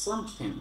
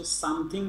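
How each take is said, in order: First: "Something" ending in "-thin", no g; dropped final g. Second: "something" with a full "-thing" ending; teacher showing the spelt-out "some-thing" to avoid; rejected pronunciation. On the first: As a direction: demonstrate "Something" as "some-thin". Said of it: "এইভাবে উচ্চারণ করে". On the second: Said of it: "বলতে কোনো কথা নেই". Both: Shown as a demonstration.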